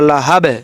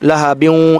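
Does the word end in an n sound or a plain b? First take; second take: plain b; n sound. First: The word ends on a plain b sound. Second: The word ends with a nasal n sound. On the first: The reading stops at this word. "যদি মিলে না পারি তাহলে লাহাবে, বার উপর মনে মনে একটা যজম ধরে নিয়ে" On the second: The reading continues into the next word. "মিলে পড়লে বায়ের দুই জের ওয়ায়েদ তাজদিদ এরকম করে উচ্চারণ হবে"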